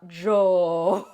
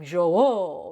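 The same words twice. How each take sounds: First: The word is said without the pitch accent. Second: The word has a marked pitch accent. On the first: The speaker calls it wrong. "It's not Jou" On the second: The speaker calls it right. "there's an accent. It's like Jou"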